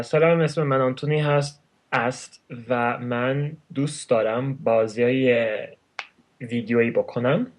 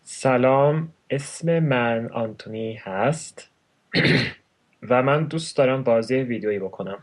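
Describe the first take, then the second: First: Rapid native Persian; very fast. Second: Measured, separated Persian words; slow it down for the listener; a little slower. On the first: Introducing himself in his native tongue, very fast. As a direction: rattle it off quickly. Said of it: "I have a habit of speaking very fast". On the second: Repeating his Persian introduction, a little slower. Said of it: "say it a little slower". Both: Shown as a demonstration.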